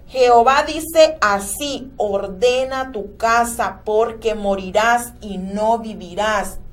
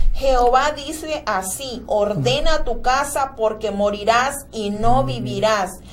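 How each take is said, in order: Both takes have the same delivery.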